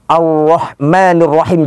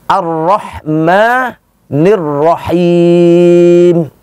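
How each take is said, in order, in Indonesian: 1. Huruf r diucapkan dengan bibir maju ke depan. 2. Huruf r diucapkan tanpa memajukan bibir. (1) "jangan begitu" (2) "Itu yang benar"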